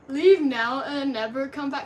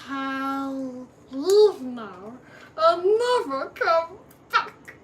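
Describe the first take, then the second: First: It is said in his normal voice. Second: It is said in a put-on Gollum voice.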